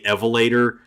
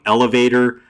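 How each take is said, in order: First: The first two consonants are swapped around. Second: The sounds are in the usual order. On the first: The speaker calls it wrong. "they wouldn't get the the order of the letters right" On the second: The speaker calls it right.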